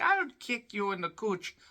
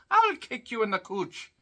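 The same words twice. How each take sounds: First: Lightly voiced leprechaun, a bit higher; a hint of a cheeky leprechaun. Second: Leprechaun voice, pitched higher; a playful leprechaun taunt. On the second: Retold or imitated. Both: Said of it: "Why they're talking like a leprechaun".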